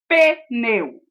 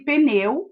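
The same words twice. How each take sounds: First: A short e vowel sits between p and n. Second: The p runs straight into the n, no vowel. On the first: The speaker calls it wrong. "e não pneu" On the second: The speaker calls it right. "O P é pronunciado sem o som E. Fala-se pneu"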